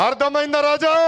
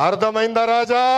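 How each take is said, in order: First: అర్థమైందా రాజా? pushed higher, mocking; higher taunting repeat. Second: Said in the usual way. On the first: Real, not acted. Leader taunting rivals before the crowd, higher mocking repeat. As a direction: throw it back at the crowd higher. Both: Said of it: "repeated taunt".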